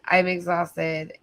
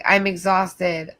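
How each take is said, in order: First: Slow, heavier, drained repeat; tired and fading; exhausted, repeated. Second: Slow, worn-out sigh of a line; tired and drawn out; exhausted. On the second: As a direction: drag it out, drained. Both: Real, not acted.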